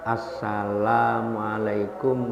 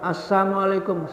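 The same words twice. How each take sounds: First: The syllable 'la' is kept in the greeting. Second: The syllable 'la' is dropped from the greeting. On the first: It wishes the listener peace. The speaker calls it right. "jangan salah mengucapkan" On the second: It wishes the listener harm. The speaker calls it wrong. "Tapi doa yang buruk"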